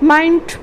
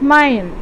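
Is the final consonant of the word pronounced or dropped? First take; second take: pronounced; dropped. First: The final consonant is fully pronounced. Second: The final consonant is dropped. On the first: This is the general English form.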